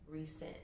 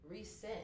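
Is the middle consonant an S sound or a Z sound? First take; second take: S sound; S sound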